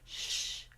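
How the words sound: The shh flows smoothly and evenly. The speaker calls it right. "Easy flowing, not a lot of extra turbulence"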